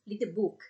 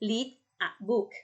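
First: Said fast with the a merged into read. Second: Said slowly with each word kept separate. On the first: "ถ้าอ่านแบบเร็วเสียงตัว A ตัวนี้จะถูกรวบไปกับเสียงตัวท้ายของคำแรก" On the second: "นี่คืออ่านช้าๆนะคะ"

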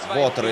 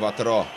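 First: The stress is on the first syllable. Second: The stress is on the last syllable. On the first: "не знаю, как правильно ставить ударение" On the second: "на французский манер, наверное, на последний слог"

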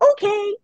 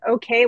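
First: It is said in a distinct, marked cue tone. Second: It is said in a plain conversational tone. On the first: It is a release signal to the dog. "I would be like" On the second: It is just a word in a sentence. "I didn't say it the way I just said it in that sentence"

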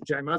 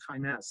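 First: The name begins with a J sound. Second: The name begins with a K sound. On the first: The speaker calls it right. "The original pronunciation is Jaymaz" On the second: The speaker calls it wrong. "most of you guys have a tendency to pronounce this as Kaymaz"

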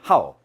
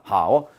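First: The syllable has a sharp falling tone. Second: The syllable does not have a falling tone. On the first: It means to like, as a verb. "사성이 돼버려. 하오가 돼" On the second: It means good, as an adjective. "좋을 호자는 형용사 하오"

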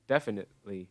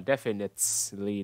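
First: The middle T is a glottal stop. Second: The middle T is clearly released. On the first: The speaker calls it right. "Cái này mình không nói rõ âm T đâu... Glottal stop" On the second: The speaker calls it wrong. "Không phải là definitely đâu nhá"

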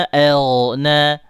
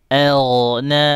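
The two takes are said the same way.

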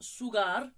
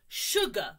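First: The word begins with a plain S sound. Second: The word begins with an SH sound. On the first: The speaker calls it wrong. "Not sugar" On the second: The speaker calls it right.

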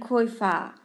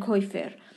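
First: The word ends with an open vowel, no r. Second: The word ends with a clear r sound. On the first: This is how it is said in standard German. "خود آلمانی ها با لهجه هختوش ... میگن کویفا" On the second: This is how it is said in Austria and by foreign learners. "توی اتریش دیدم میگن، ... مثلا میگن کویفر"

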